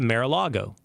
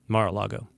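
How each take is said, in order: First: The first syllable sounds like "mare". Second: The first syllable sounds like "mar". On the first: The speaker calls it wrong. "I always do that" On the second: The speaker calls it right. "It's Mar, Spanish, lake, sea, sea, not mare"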